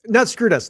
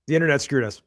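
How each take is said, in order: First: Not punched higher and louder; self-correction, louder and higher on Not; stress on not. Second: Said in the usual way. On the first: Real, not acted. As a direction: hit the word Not hard, correcting yourself. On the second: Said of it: "Sorry. Not screwed us".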